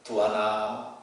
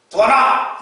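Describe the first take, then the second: First: The name is called softly, with warmth. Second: The name is called out sharply, without warmth. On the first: The caller feels love and fondness. The speaker calls it right. "이거는 좀 사랑이 있고 정감 있는 말이 아닙니까?" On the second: The caller feels little affection. The speaker calls it wrong. "이거는 약간 반한 거죠"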